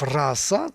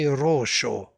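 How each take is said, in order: First: It is said with standard Sanskrit vowels and s. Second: It is said with a Bengali o and sh.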